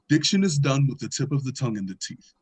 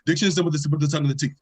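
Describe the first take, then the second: First: The sentence is said at a slow pace. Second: The sentence is said at a fast pace. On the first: "it'll be something as simple as" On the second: "it gets faster and faster"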